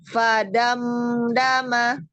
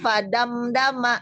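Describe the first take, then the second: First: The m is flowed with a slight nasal hold. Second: The word is read quickly without the m hold. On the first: "Bukan ditahan tapi dialirkan, ada sifat bainiyah" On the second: "Kalau ngebacanya de cepet ini"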